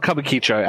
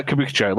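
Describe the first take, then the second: First: Kabukicho said as "kubba-KEE-cho"; mispronounced Kabukicho. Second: Said in the usual way. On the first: Shown as a demonstration. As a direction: turn Kabukicho into "cubba-keecho", stressing the kee. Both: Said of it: "a pronunciation error someone said to me".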